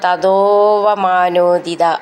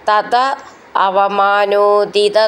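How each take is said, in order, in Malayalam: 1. വാക്കുകൾ 'ഓ' ശബ്ദത്തോടെ ചേർന്ന് ഒന്നാകുന്നു. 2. രണ്ട് വാക്കുകളും വേറെ വേറെയായി, ചേരാതെ പറയുന്നു.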